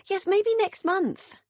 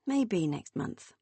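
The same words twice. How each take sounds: First: High, slow, evasive sing-song; high hedging sister. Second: Flat echo. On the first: Beth dodging Meg's invite, high and slow. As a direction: stall sweetly, promising nothing. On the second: Megan echoing her sister's dodge, deadpan. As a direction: repeat it back without belief. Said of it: "repeated Megan". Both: A narrator's reading.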